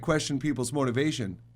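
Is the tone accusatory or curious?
accusatory. It is said in an accusatory tone. The questioning is an accusation. The speaker calls it wrong. "It's not okay to"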